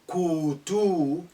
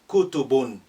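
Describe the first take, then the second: First: A vowel in the word is drawn out long. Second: All vowels in the word are kept short. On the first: The speaker calls it wrong. "don't say" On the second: The speaker calls it right.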